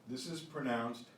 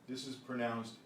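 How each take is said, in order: The two takes are said the same way.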